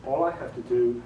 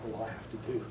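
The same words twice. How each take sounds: First: Said in the usual way. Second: "all I have to do" said again much softer and lower; quieter retake. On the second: Shown as a demonstration. Narrator showing a quick retake, much softer. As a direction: redo the line gently, dropping it down. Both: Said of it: "say the sentence again".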